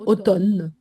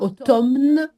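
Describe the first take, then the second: First: The m is silent, only an n is heard. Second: The m sound is pronounced in the middle. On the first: The speaker calls it right. "Comme s'il y avait seulement un N" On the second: The speaker calls it wrong. "on ne l'appelle pas automne"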